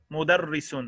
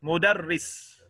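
First: "مدرس" said mudarris, r doubled; "مدرس" with the shadda on r clearly held. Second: "مدرس" with a doubled r, mudarris. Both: Shown as a demonstration. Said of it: "There's a shadda on the ra".

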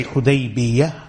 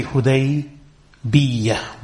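First: Hudaybiyah with a light, single y in the ending; without tashdeed. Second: Hudaybiyah with the ya doubled and held; with tashdeed. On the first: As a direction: say Hudaybiyah with no doubling on the ya. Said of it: "without the tashdeed on the ya". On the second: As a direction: slowly lean on a long double y in Hudaybiyah. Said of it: "with the tashdeed". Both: Shown as a demonstration.

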